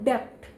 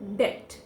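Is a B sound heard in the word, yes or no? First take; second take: yes; no. First: A B sound is pronounced before the T. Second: No B sound is pronounced before the T. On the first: The speaker calls it wrong. "I have heard people speaking it as debt, debt, but that is wrong" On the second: The speaker calls it right. "we have to discard the B letter in it"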